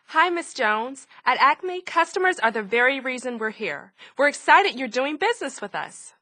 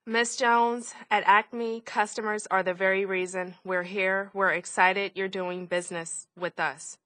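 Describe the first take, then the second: First: It is said with varied, lively pitch. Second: It is said in a flat monotone.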